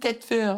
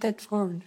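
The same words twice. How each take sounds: First: The name ends with a 'herd' sound. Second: The name ends with a 'ford' sound. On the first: This is how locals say it. The speaker calls it wrong. "les gens de Tedford, ils disent Tedford ... Je sais pas pourquoi ils disent herd" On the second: This is the proper form for announcements. The speaker calls it right. "mais faut dire Tedford. Parce que c'est comme un F O R D à la fin"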